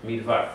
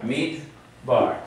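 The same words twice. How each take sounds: First: "Midvar" with a soft v in place of the b; "Midvar" with the b softened to a v. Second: "Midbar" with a hard stopped b; "Midbar" with a crisp b after the closed "mid". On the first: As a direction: say "Midvar" with a v, as without a Dagesh. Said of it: "if I had no Dagesh here". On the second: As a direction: say "Midbar" with a firm b, as with a Dagesh. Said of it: "Instead of Midvar". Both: Shown as a demonstration.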